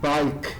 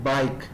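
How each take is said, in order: The two takes are said the same way.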